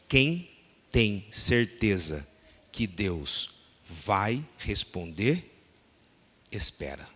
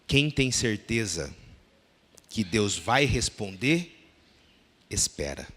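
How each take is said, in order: First: The sentence is read calmly and very slowly. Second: The sentence is read at a normal pace.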